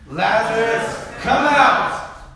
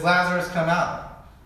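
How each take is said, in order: First: It is yelled loudly. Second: It is said quietly, without yelling.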